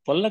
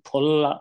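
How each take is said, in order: First: The first consonant is a plain unaspirated p. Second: The first consonant is an aspirated ph. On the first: The speaker calls it wrong. "పుల్ల కాదు" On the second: The speaker calls it right. "ఫ"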